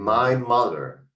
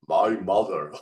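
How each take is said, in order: First: It is said with full, varied tone. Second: It is said in a flat, toneless voice.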